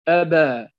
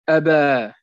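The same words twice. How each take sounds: The two takes are said the same way.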